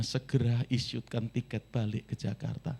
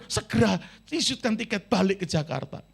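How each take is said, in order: First: Said in the usual way. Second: Higher, urgent cry to be sent home; desperate plea. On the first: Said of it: "Dia kontak papinya". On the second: Retold or imitated. Crying student phoning his father, urgently begging to fly home. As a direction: beg for the ticket like a panicked student. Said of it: "Wah, dia langsung telepon".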